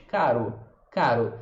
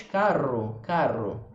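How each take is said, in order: First: "Caro" with one quick tongue tap; single tap R. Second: "carro" with a stronger, longer trilled R; emphasized R. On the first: Teacher contrasting single tap with emphasized R. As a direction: flick the tongue once on the R of "Caro". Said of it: "só estala ele uma vez". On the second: Teacher emphasizing the R against the single tap. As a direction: lean on the R of "carro" a bit more. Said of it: "Se eu enfatizar um pouco mais". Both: Shown as a demonstration.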